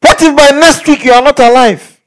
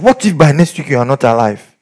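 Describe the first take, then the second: First: Loud and high, a dire warning; loud threat. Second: Said in the usual way. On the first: Retold or imitated. Preacher re-enacting his threat to the guy, loud and high. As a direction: hammer the warning home.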